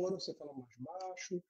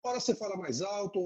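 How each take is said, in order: First: Much softer, dropped right down; quieter. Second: Said in the usual way. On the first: Shown as a demonstration. Lawyer demonstrating voice modulation to the host, drops to a soft voice.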